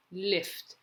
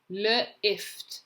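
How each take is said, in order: First: Said in the usual way. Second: L split off from "ift"; sounding out. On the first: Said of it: "you're going to read the word". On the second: Shown as a demonstration. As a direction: say L, then ift, separately. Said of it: "say the letters as you're writing".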